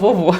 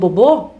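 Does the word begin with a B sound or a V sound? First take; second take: V sound; B sound. First: The word begins with a V sound. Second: The word begins with a B sound. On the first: The speaker calls it right. "o certo é falar o vovô" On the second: The speaker calls it wrong. "Se você ficar reforçando o bobô, esse v não vai vir"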